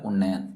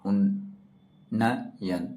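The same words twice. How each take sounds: First: Said in the usual way. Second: उन्नयन stretched very slowly, उन्न then यन; very slow spelling. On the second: Shown as a demonstration. Teacher breaks उन्नयन into sounds for students, very slowly. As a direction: drag उन्नयन out, every sound apart. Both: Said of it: "एक बार वो, फिर आधा ना".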